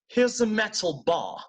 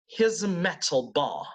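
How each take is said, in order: First: It is said in a British accent. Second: The same.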